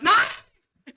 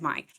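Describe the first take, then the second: First: The name is shouted loudly. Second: The name is said in a normal, quiet voice.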